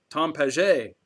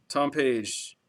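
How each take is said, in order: First: "Paget" said French-style as pah-ZHAY; "Paget" in two syllables, pah-ZHAY, like French; French pronunciation. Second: Said in the usual way. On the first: Shown as a demonstration. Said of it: "that's the way you say it because of the little accent". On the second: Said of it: "I'm assuming that's the way you say it".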